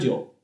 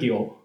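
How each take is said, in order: First: The word begins with a j-like consonant. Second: The word begins with a g-like consonant. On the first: This is the modern standard reading. "在今天的这个普通话里面发音都是酒" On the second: This is the old round-sound reading. "如果你要强行发团音呢是酒"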